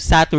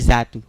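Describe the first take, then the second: First: The name begins with an S sound. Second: The name begins with a Z sound.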